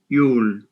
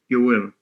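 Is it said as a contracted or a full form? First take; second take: contracted; full. First: It is said as one short contracted syllable. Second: It is said as two full separate words.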